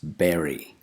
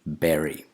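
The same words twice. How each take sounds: First: The first vowel is a short 'e' sound. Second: The first vowel is a short 'e' sound.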